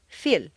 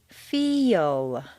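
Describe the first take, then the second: First: The vowel is short with no glide. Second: The vowel glides through a y before L. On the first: The speaker calls it wrong. "If you say just the letters that you see, it will sound more like fil" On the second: The speaker calls it right. "You need to say feel. Is that really a Y? Yes"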